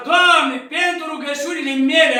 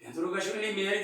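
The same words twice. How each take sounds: First: Strigat tare și sus, cu încredere; „mele” rostit apăsat și sus; rugă tare. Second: Mai încet și repede, nesigur; „mele” spus încet, în gând, cu îndoială; gând ezitant. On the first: Shown as a demonstration. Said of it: "îl învăța Sfântul Antonie". (rugă strigată, sigură) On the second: Retold or imitated. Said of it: "s-a gândit". (rostire încetă, nesigură, în gând)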